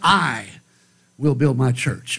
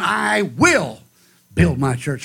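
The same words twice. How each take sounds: First: The stress is on "I". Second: The stress is on "will".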